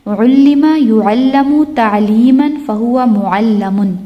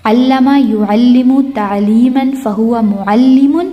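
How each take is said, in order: First: Slow recital, "علم" as ullima, "معلم" as mu'allamun; passive forms. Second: Slow recital, "علم" as allama, "معلم" as mu'allimun; active forms. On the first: Teacher drills passive line, slow recital with "علم" as ullima. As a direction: recite "يعلم" as yu'allamu, "معلم" ending lamun. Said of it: "past passive کی sound ہوتی ہے او ای". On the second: Teacher drills active line, slow recital with "علم" as allama. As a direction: recite "یعلم" as yu'allimu, "معلم" ending limun, rising. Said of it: "یہ یاد کرنا ہے". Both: Shown as a demonstration.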